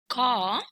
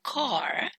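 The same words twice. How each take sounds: First: The word ends without an R sound. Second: The word ends with an audible R sound. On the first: "that belongs to R P or British English" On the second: "that belongs to General American"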